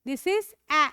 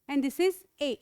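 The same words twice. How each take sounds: First: "A" said as an open a sound; vowel a. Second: "A" said as an e sound, as in elephant; vowel e. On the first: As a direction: open wide for "A". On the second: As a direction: close the vowel to e for "A". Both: Shown as a demonstration. Teacher contrasting the two A sounds. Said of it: "आप इसको भी ए बोलते हो".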